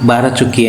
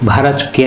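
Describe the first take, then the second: First: The first consonant is plain, without breath. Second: The first consonant is aspirated, with breath. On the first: The speaker calls it wrong. "ఒత్తు లేకుండా" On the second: The speaker calls it right. "ఒత్తు భాతో భారత్ చుక్కి అని పిలవాలి"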